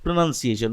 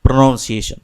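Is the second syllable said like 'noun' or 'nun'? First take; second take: nun; noun. First: The second syllable sounds like 'nun'. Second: The second syllable sounds like 'noun'. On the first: The speaker calls it right. "you say it's pronunciation" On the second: The speaker calls it wrong. "not pronunciation"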